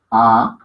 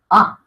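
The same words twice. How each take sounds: First: Said in the usual way. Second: "A" said higher and louder, with a sharp lift; accented A. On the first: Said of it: "No es una A larga, es una A acentuada". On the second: Shown as a demonstration. Teacher showing students the accented "A", raised and loud. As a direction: give "A" a raised, punched accent. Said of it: "es una A acentuada".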